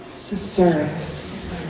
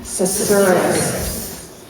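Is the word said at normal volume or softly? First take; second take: softly; normal. First: It is said softly and quietly. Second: It is said at normal volume.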